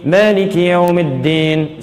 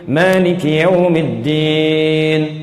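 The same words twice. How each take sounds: First: The stretched vowels are short and quick. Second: The stretched vowels are of medium length. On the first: "dua harakat, satu detik ... hadar, bacaan cepat" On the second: "mutawassit, pertengahan. Jadikan empat harakat, dua detik"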